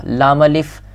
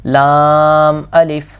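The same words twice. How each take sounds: First: لام clipped short, not stretched; wrong short lam. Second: لام held long before الف; lengthened lam. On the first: Teacher showing the wrong way to read لام الف. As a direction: say لام الف quickly without lengthening لام. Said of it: "نہیں پڑھا میں نے". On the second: Teacher showing the right way to read لام الف. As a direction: stretch لام fully, then الف. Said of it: "تو ہم نے اتنا ہی لمبا کرنا ہے". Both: Shown as a demonstration.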